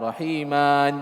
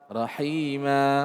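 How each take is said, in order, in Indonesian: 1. Kata ini berakhir dengan bunyi n. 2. Kata ini berakhir dengan vokal a panjang. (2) "hilang tanwinnya"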